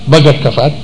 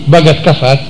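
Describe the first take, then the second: Both takes have the same delivery.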